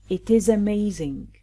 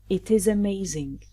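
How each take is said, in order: The two takes are said the same way.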